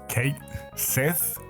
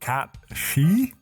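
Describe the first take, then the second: First: The name ends with a 'th' sound. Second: The name ends with an 'sh' sound. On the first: "Or however your name is pronounced" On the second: "my bet is on Cat She"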